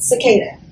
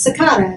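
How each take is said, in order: First: The word is said with an American pronunciation. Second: The word is said with a British pronunciation. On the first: The speaker calls it wrong. "not cicada" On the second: The speaker calls it right. "So it's British, so it's cicada"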